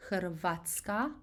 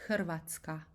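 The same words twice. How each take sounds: First: "Hrvatska" with the emphasis on the A, hr-VAT-ska; stress on A. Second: "Hrvatska" with the emphasis on the rolled R, HRR-vat-ska; stress on rolled R. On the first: Teacher showing the easier way, "Hrvatska" stressed on the A. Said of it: "putting the emphasis on A". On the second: Teacher giving the proper Croatian way, "Hrvatska" stressed on the rolled R. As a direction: hit the trilled R in "Hrvatska", not the A. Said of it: "putting the emphasis on that strong rolling R". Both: Shown as a demonstration.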